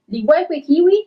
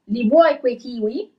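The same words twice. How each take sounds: First: The phrase is read at a fast pace. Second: The phrase is read at a slow pace. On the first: "I'm gonna read it a little bit faster" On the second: "I'm gonna read a little bit slower at first"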